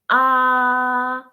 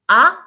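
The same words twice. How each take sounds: First: The pitch stays level and steady throughout. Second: The pitch rises from lower to higher. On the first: "the first tone ... it's flat and straight" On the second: "the second tone ... rise in your tone"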